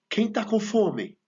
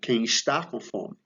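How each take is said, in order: First: The verb is said in a shortened form. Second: The verb is said in its full form.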